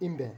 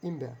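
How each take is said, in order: Both takes have the same delivery.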